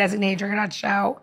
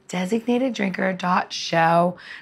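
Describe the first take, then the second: First: The address is said at a quick pace. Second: The address is said at a slow pace.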